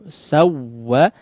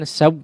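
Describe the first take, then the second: First: The doubled w is stressed but the voice keeps flowing. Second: The voice stops dead right after the w. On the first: The speaker calls it right. "dihantakkan ya cara membacanya" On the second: The speaker calls it wrong. "jangan saw, saw mati ya, aliran suaranya uh, terputus"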